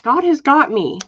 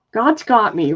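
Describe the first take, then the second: First: "has" hit higher and louder, insisting; stress on has. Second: Said in the usual way. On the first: Real, not acted. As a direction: lean hard on "has" to convince yourself. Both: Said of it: "I keep telling myself that".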